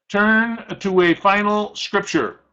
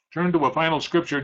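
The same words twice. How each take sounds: First: Slow, higher, with weight on "Turn"; emphatic announcement. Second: Faster and softer, with a light "Turn"; quick quiet repeat. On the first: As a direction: lean on "Turn" and draw the line out slowly. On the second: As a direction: toss the line off quickly and quietly. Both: Shown as a demonstration.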